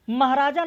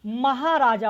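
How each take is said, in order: First: महाराजा squeezed to mahrājā, middle vowel dropped; महाराजा said wrongly as mah-rājā; महाराजा with the "hā" swallowed; wrong pronunciation. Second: महाराजा with a full long hā, ma-hā-rā-jā; महाराजा said clearly, every syllable full; महाराजा, give the hā its full length; correct pronunciation. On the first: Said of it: "नहीं होता है". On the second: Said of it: "ह बड़ा होगा". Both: Shown as a demonstration.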